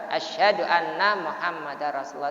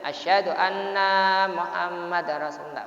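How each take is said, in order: First: The vowels are kept at normal short length. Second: A vowel is drawn out much longer than normal. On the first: The speaker calls it right. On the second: The speaker calls it wrong. "tidak boleh nanya dipanjangkan ... Tidak boleh"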